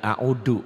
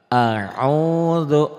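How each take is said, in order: First: The middle consonant is a hard 'd' sound. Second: The middle consonant is a soft 'dh' sound. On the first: The speaker calls it wrong. "jangan a'udu ya" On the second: The speaker calls it right. "Ujung lidah ke ujung gigi ya"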